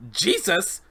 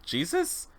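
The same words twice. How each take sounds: First: "Jesus" exclaimed high, falling at the end; shocked "Jesus". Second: "Jesus?" with a questioning rise. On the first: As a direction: blurt "Jesus" in disbelief. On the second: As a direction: ask "Jesus?" softly, lifting the end. Doctor asks who is meant. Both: Acted.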